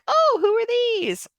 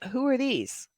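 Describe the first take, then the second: First: It sounds cute and affectionate. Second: It sounds confused, not recognizing anyone.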